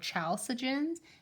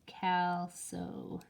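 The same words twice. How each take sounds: First: The word begins with a ch sound. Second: The word begins with a hard k sound. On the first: The speaker calls it wrong. "you always want to go" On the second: The speaker calls it right. "it has like a silent H"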